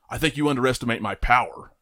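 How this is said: It is said in a calm, stern way.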